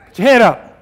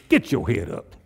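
First: High, loud, rousing order; preacher's ringing call; loud command. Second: Head-down mumble, lower pitch; slumped head-down version; low, droopy take. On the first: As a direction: shout it up to lift their chins. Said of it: "I'd like to just do this". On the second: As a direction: say it like you're staring at your feet. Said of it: "Sometimes I'd like to just do this". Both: Shown as a demonstration.

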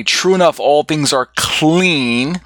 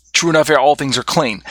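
First: "enough" stressed and falling, then "all things are clean" slowed right down with "clean" rising; slow emphatic reading. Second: Said in the usual way. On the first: Shown as a demonstration. Teacher rereading the verse slowly to the class, stressed. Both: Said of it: "in verse twenty".

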